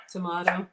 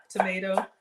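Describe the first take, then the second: First: Tomato with a broad "ah", tuh-MAH-toe; tomato pronounced tuh-MAH-toe; tomato the other way. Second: Tomato with a long "ay" sound, toe-MAY-toe; Tomato rhymed with "potato"; tomato the usual way. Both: Shown as a demonstration. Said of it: "Do you say pecans or pecans?".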